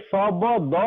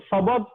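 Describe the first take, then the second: First: ଶବଦ slowly as "sa-ba-da"; as spelt. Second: ଶବଦ as "sa-bad", final vowel dropped; local pronunciation. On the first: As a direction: give every letter of ଶବଦ its open vowel. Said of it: "ତାକେ ଶବଦ ଲେଖମୁ ବେଲେ". (ଶବଦ, ଅକ୍ଷର ଅକ୍ଷର କରି ଧୀରେ) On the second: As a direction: end ଶବଦ closed on the d. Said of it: "ଆମେ ବୋଲୁଛୁ ଶବଦ". (ଶବଦ, ଶେଷରେ ହଲନ୍ତ ଉଚ୍ଚାରଣ) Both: Shown as a demonstration.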